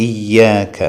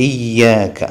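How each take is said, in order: The two takes are said the same way.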